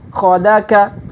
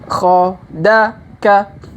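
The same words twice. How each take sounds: First: The syllables are read quickly in succession. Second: The syllables are read slowly and separately. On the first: "Kalau dipercepat" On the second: "Kita baca pelan-pelan"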